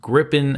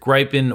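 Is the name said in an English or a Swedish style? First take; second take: Swedish; English. First: The name is said in a Swedish style. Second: The name is said in an English style.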